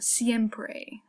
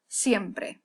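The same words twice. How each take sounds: First: The E vowel is long and drawn out. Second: The E vowel is short and crisp. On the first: The speaker calls it wrong. "They kind of do this long E" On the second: The speaker calls it right. "we want to make it short, we want to make it crisp"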